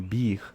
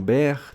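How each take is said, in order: First: The name has a high 'ee' vowel. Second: The name has a short 'eh' vowel. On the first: "nem como Bir" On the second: "Ele não é pronunciado nem como Ber"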